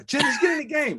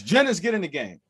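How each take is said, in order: First: Very high, loud coach yell; retold sideline scream, pitched way up; impatient scream. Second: Loud, high sideline yell; retold shout from a pissed coach; coach's scream. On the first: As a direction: cut in with a high-pitched holler. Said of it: "They're screaming". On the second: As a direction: bellow an order like an angry coach. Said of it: "Coach just screams".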